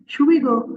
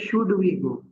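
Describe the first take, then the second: First: The d is dropped, so words run together. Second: Every sound, including the d, is pronounced. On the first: "they omit sounds of specific um, words" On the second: "मैंने कहा था कि should we go"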